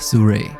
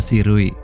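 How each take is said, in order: First: The name sounds like the English word Surrey. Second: The name is read as spelled, Indonesian style. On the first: This is how the makers say it. The speaker calls it right. "cara bacanya yang benar adalah Surrey" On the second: This is how an Indonesian reader would say it. The speaker calls it wrong. "kalau dalam bahasa Indonesia mungkin itu dibaca Sirui"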